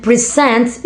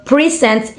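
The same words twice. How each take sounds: First: "present" as pre-SENT; stress on second syllable of "present". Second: "present" as PRE-sent; stress on first syllable of "present". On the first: Student naming the verb, second-syllable stress on "present". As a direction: lean on the end of "present". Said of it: "stress on the second syllable". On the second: Student naming the noun, first-syllable stress on "present". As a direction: hit the start of "present". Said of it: "present is a noun". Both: Shown as a demonstration.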